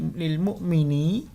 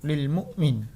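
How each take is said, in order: First: The word ends with a final i vowel. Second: The word ends on a bare n sound. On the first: This is the full written form of the word. "walaupun di sini lil mu'mini" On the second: The reading stops at this word. "nunnya Bapak wakofkan atau disukun"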